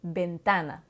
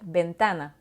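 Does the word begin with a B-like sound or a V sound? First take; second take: B-like; B-like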